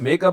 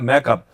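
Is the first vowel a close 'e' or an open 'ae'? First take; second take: close e; open ae. First: The first vowel is a close 'e' sound. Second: The first vowel is an open 'ae' sound. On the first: The speaker calls it right. "Director ने चला मेकअप" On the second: The speaker calls it wrong. "मेकअप की जगह मैकअप बोलते हैं वो लोग"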